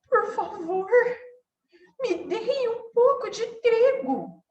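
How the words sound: The voice sounds scared and timid. The speaker feels afraid. "E se ela tivesse com medo?"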